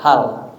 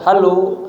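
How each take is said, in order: First: The word ends on a bare consonant. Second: The word ends with an added vowel. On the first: The speaker calls it right. "ujungnya selalu ma sukun" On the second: The speaker calls it wrong.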